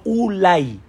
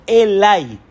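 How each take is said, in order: First: Ulay said slowly, the wrong reading set against Elay; Ulay stretched out slowly, marked as the wrong way. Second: Elay said slowly with a falling end, the correct reading; Elay firm and slow, marked as the right way. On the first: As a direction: read Ulay as the rejected vocalization, drawn out. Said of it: "no Ulay, sino Elay". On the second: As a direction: stress Elay as the true vocalization, drawn out. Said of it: "la puedes vocalizar Elay". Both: Shown as a demonstration.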